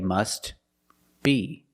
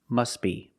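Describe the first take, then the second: First: The words are separated and the T is pronounced. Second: The words are linked and the T is silent. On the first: "If you separate the words and you pause between words" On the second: "But if you link the words"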